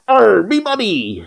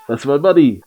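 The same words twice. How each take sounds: First: High, drawn-out pirate cry; hammed-up pirate wail over stolen loot; mock pirate. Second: Said in the usual way. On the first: Player parodies the money line, mock pirate cry.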